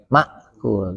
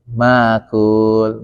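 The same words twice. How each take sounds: First: A glottal stop follows the first vowel. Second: The first vowel is lengthened without a stop. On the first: This follows the Hafs reading tradition. "kalau kita kan makul" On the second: This follows the Nafi' reading tradition. "hamzah sukunnya, dia dipanjangkan huruf itu"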